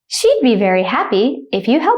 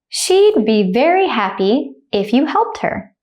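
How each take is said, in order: First: The sentence is spoken fast and naturally. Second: The sentence is spoken slowly and carefully. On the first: "I'll say it like a native speaker, speed" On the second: "The first time I'll say it slowly"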